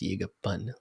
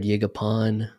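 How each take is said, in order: First: The last syllable sounds like 'pun'. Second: The last syllable does not sound like 'pun'. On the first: This is how the name is really said. "like a P U N" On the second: This is how others usually say the name. "that's the one I've definitely heard the most"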